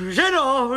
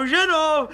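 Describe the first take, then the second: First: Much higher call to the wife; higher call to his wife. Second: Higher, louder second call to the wife; louder, higher call to his wife. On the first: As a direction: call the wife from the next room. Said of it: "calling his wife". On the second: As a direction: raise it the second time, impatient. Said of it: "calling his wife again". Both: Acted.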